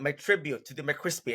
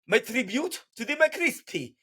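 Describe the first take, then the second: First: It is spoken in the speaker's own plain accent. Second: It is spoken in a put-on French accent.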